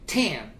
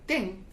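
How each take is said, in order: First: The ending sound is strong and clear. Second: The ending sound is soft and weak. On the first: The speaker calls it right. "You have to say ten" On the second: The speaker calls it wrong. "It's not strongly pronounced"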